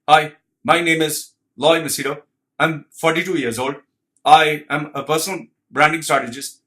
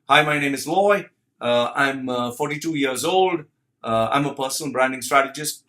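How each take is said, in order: First: It sounds stiff and robotic, with held breath. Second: It sounds relaxed and natural, with easy breathing.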